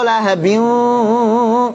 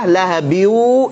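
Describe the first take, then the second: First: Only a nasal hum is heard, no w sound. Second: Only a plain w sound is heard, no hum. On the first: "dengung doang, wawunya tidak ada" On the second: "seratus persen jadi wawu"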